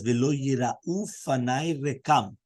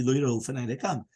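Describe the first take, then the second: First: Each word drawn out slowly, chanting the verse; slow, deliberate chant of the quoted verse; slow recitation. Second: Said in the usual way. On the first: Shown as a demonstration. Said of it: "over there it says". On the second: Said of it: "that's at the end of the pasuk".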